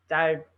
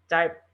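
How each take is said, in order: The two takes are said the same way.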